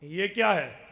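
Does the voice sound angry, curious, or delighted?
angry. It is said in an angry, rejecting tone. The speaker rejects the thing. "इसका माने इनकार है, गुस्सा है"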